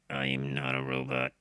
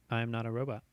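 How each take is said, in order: First: It is said loudly in a put-on robot voice. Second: It is said in a normal voice.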